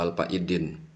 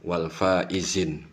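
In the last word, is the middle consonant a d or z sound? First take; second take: d; z. First: The last word has a d sound in the middle. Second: The last word has a z sound in the middle. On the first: The speaker calls it wrong. "bukan wal faidin" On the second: The speaker calls it right. "Wal faizin ya"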